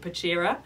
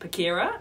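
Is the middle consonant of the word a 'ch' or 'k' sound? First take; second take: ch; k. First: The middle consonant is a 'ch' sound. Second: The middle consonant is a hard 'k' sound. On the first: The speaker calls it wrong. "I was calling it Pachira" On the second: The speaker calls it right. "actually it's pronounced Pachira"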